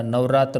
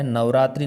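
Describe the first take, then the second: First: नवरात्र ending "raatar", no "i"; correct form. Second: नवरात्रि ending in "tri"; quick नवरात्रि with final "i"; wrong form. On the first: Teacher gives the right festival word, firm. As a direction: finish नवरात्र without the "ee". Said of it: "होता है". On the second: Teacher recalls the faulty festival word, emphatic. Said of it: "नहीं होता". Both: Shown as a demonstration.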